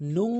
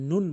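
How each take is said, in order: First: The final n is hidden with a nasal hum. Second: The final n is pronounced clearly. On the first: The speaker calls it right. "নুং বলতে হবে" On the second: The speaker calls it wrong. "নুন বলা যাবে না"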